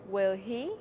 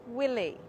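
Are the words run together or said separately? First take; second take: separate; run together. First: The words are said slowly and separately. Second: The words are said fast and run together. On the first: The speaker calls it wrong. "Don't say" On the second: The speaker calls it right. "Speak fast. Say"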